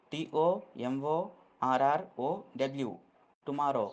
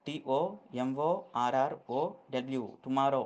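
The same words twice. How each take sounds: The two takes are said the same way.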